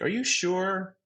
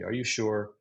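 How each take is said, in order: First: The pitch rises high at the end. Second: The pitch does not rise at the end.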